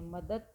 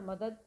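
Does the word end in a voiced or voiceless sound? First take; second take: voiceless; voiced. First: The final consonant is voiceless, a t sound. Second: The final consonant is voiced, a d sound. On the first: "घोष ध्वनि को अघोष में बदल दिया" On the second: "मदद को हम क्या कहते हैं"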